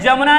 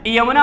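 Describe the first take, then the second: First: The word begins with a J sound. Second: The word begins with a Y sound. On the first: The speaker calls it wrong. "अरे जमुना नहीं होता है" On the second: The speaker calls it right. "यमुना होता है"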